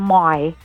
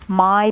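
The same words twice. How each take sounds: First: The vowel is said in an Australian way. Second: The vowel is said in a non-Australian way.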